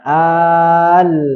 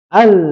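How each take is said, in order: First: The syllable flows smoothly without any pressing. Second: The syllable is pressed with a sharp emphasis. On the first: The speaker calls it wrong. "nggak hanya al" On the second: The speaker calls it right.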